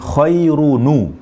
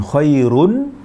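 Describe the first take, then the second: First: The word ends with an added u vowel. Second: The word ends on a bare n sound. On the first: "Jadi nun akhirnya menjadi dhammah" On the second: "Nunnya yang tadi bersukun"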